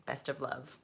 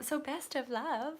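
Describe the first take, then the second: First: Said in the usual way. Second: Much higher, a touch louder; bright sign-off. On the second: Real, not acted. Reader blessing the querent, bright and much higher. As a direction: sing it out as a cheery farewell.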